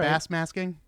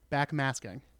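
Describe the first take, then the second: First: The first word ends with an 's' sound. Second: The first word ends with a 'k' sound. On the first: The speaker calls it wrong. "there are a couple times where bass masking" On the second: The speaker calls it right. "I say it correctly"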